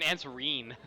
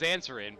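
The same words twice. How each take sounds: First: The middle vowel is a long e sound. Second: The middle vowel is short and reduced. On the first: "it looks like an answerin" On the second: "I know it's answerin"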